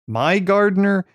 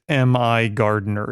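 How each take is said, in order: First: The first part sounds like the word my. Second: The first part is spelled out as letters. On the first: The speaker calls it wrong. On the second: The speaker calls it right.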